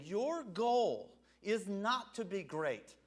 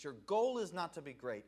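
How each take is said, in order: First: Drawn out, each word weighed; slow it right down on "Your goal is not to be great"; slow emphatic quote. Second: Said in the usual way. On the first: Shown as a demonstration. Preacher to congregation, slowly and deliberately spelling out the point. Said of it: "he's saying". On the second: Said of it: "That's never been the goal of Jesus".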